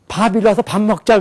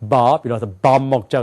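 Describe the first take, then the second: First: It is said with a Korean pronunciation. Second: It is said with an English-speaker pronunciation. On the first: "한국 사람들이 이래요" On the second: "영어를 쓴 사람은 ... 그런단 말이에요"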